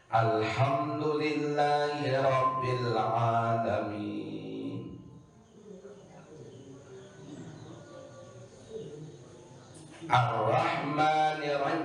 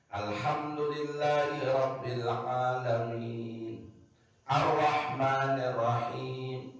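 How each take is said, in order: First: There is a long break between the two verses. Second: The verses flow on with only a breath between. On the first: The recitation loses its required continuity. The speaker calls it wrong. "Kamu ngonek" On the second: The recitation keeps its required continuity. The speaker calls it right. "terus menerus niki kaum kanggo sekedar tarik napas sekali itu"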